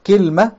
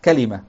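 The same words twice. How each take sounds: First: كلمة said as kilma, two syllables, i in the first; teacher demonstrating كلمة as kilma; Tamimi kilma. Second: كلمة said as kalima, three full syllables; teacher demonstrating كلمة as kalima; Hijazi kalima. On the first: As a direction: say كلمة the Tamim way, kil-ma, dropping the middle vowel. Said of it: "وهي لغة تميم". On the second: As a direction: say كلمة the Hijazi way, ka-li-ma, with open first vowel. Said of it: "وهي لغة أهل الحجاز". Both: Shown as a demonstration.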